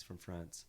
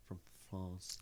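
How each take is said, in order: First: Said in the usual way. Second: "France" said the French way, with an open ah; French pronunciation. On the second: Shown as a demonstration. Repeats country the French way.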